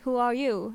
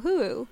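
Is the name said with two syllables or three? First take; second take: three; two. First: The name is said as three syllables. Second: The name is said as two syllables. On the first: The speaker calls it right. "no, it's Who Are You?" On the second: The speaker calls it wrong. "I thought it was just Huru"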